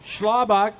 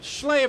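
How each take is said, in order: First: The name ends with a hard 'bock' sound. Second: The name ends with a soft 'buh' sound. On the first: The speaker calls it wrong. "Did I say it right?" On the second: The speaker calls it right. "Figures I would butcher it"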